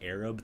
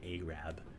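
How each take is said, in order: First: It is said in a non-Texan way. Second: It is said in a Texan way.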